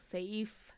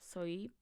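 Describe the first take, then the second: First: The word ends with an f sound. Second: The word ends with a p sound. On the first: The speaker calls it right. "la P se pronuncia como una F" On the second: The speaker calls it wrong. "no la sé pronunciar"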